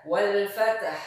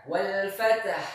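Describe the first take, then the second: The two takes are said the same way.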